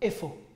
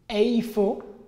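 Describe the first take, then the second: First: The first vowel is a plain 'e'. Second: The first vowel glides like 'ay'. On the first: "vous pouvez prononcer tout simplement efo" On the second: "vous pouvez prononcer eifo"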